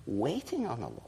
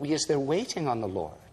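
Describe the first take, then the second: First: "Waiting on the Lord" whispered softly; reverent whisper. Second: Said in the usual way. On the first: Shown as a demonstration. Preacher echoing the phrase to the congregation, whispered. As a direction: breathe it out in a hush.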